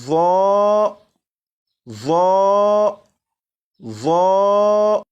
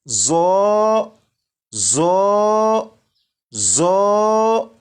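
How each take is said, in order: First: The letter sounds thick with no whistling hiss. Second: The letter sounds with a whistling hiss. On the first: The speaker calls it right. "पुर यानी मोटा" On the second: The speaker calls it wrong. "सीटी की आवाज के साथ"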